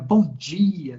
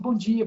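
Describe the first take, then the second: First: It is said warmly and calmly. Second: It is said hurriedly and indifferently.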